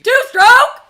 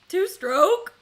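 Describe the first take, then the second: First: It is screamed loudly with great enthusiasm. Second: It is said calmly, without much energy.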